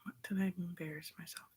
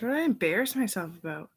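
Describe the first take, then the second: First: Breathy whisper to herself. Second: Louder question. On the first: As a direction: murmur the same question under her breath. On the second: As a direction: ask yourself out loud. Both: Real, not acted. Repeats question aloud then whispered.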